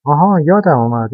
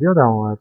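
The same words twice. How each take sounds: First: Surprised realization. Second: Said in the usual way. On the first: A narrator's reading. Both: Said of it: "با تعجب گفت".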